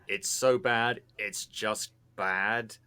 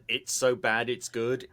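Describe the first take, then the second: First: "so bad it's just bad" slow, leaning on "just bad"; slow down and land "just bad"; stress on just bad. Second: Said in the usual way. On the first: Shown as a demonstration.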